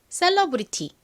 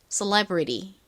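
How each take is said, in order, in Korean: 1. 한국식 음절로 발음해요. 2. 미국 영어 발음으로 해요. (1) "이 단어를 한국식으로 읽어보면 셀러브리티입니다" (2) "미국식으로는 셀러브리티가 아니라 celebrity처럼 발음이 됩니다"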